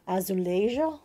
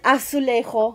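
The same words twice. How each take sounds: First: It is pronounced with a Portuguese J sound. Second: It is pronounced with a Spanish J sound. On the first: "Portuguese would be more like" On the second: "that is the Spanish version"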